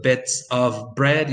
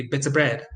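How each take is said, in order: First: "bits of bread" said slowly with a full "of"; slow careful demo. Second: "bits of bread" with the v of "of" dropped; reduced demo. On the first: Teacher giving the careful form to students, slow. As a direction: say "of" fully and slowly. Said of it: "Instead of". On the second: Teacher giving the relaxed connected form to students, quick. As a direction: drop the v in "of". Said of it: "you say". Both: Shown as a demonstration.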